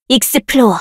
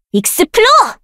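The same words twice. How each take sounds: First: Said in the usual way. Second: Much higher, ringing; high spell call. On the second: Acted. Caster calling the spell high.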